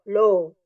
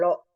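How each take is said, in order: First: The o vowel is drawn out long. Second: The o vowel is cut short. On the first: The speaker calls it right. "maka dia bunyinya akan dua" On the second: The speaker calls it wrong.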